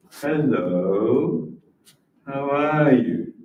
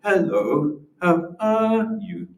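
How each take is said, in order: First: Said in the usual way. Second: Slow sung-out hello how are you; dance the rhythm, high and slow on are; stretched teaching intonation on "how are you"; rhythmic demo. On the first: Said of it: "that's a normal sentence". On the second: Shown as a demonstration. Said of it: "tell you to dance to the rhythm of the language".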